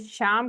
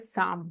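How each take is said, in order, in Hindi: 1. नाम 'sh' ध्वनि से शुरू होता है। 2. नाम 's' ध्वनि से शुरू होता है। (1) "ये शाम करके लिखा हुआ है" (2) "लेकिन इसको हम प्रोनाउंस करेंगे साम"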